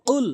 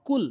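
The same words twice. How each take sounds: First: "কুল" with q from the tongue root; correct qaf. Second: "কুল" with a plain front k; wrong pronunciation. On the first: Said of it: "জিহ্বার গোড়া থেকে উচ্চারণ". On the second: Teacher showing the common mistake, "কুল" with plain k. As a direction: say "কুল" with an ordinary k sound. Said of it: "সম্পূর্ণ ভুল". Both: Shown as a demonstration.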